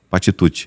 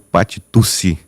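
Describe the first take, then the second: First: The double c is said like 'tch'. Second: The double c is not said like 'tch'. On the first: The speaker calls it right. "o correto" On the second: The speaker calls it wrong. "algumas pessoas que falam"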